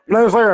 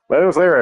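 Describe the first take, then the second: First: It is said in a put-on character voice. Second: It is said in the speaker's natural voice.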